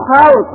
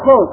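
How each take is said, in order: First: The first vowel is an open 'a' sound. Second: The first vowel is a rounded 'u' sound. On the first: "بفتحها" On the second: "بضم الخاء"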